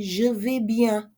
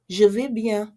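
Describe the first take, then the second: First: Je vais bien said slowly and clearly; slow model reply. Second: Said in the usual way. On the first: Shown as a demonstration. Teacher modelling the answer slowly. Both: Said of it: "Or you can say".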